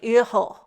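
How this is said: It is said with a German pronunciation. "how a German says it"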